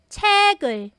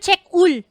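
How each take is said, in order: First: The k sound moves over to start the second syllable. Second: The two syllables are read apart, k ends the first. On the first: The speaker calls it right. "Ang basa po talaga" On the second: The speaker calls it wrong. "hindi po yan check ul"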